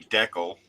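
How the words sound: It is said the Canadian way.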